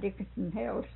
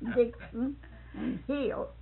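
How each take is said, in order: First: The words are run together into one blur. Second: The words are said separately and clearly. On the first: The words are garbled when said quickly. The speaker calls it wrong. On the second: The words are said as intended. The speaker calls it right.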